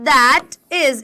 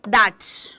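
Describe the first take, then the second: First: It is said as two separate full words. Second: It is said as one short contracted word. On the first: "अगर हमें बोलना है दैट इज" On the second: "small small short में बोलना है"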